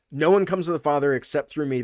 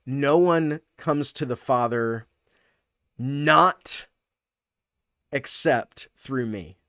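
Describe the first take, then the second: First: Said in the usual way. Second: Slow, broken-up reading that leans on "No one" and "not"; emphatic reading. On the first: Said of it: "That's the way we say it in English". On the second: Shown as a demonstration. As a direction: stress on "one" and "not", long pauses before "not" and "except through me". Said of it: "you could read it this way".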